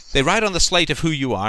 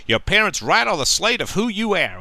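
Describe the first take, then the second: First: Said in the usual way. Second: Cheesy talk-show doctor impression, pitched higher; a half-hearted stab at a folksy TV-doctor voice, pitched up; hammy daytime-TV advice voice, higher pitch; Doctor Phil. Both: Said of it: "I can't do his accent".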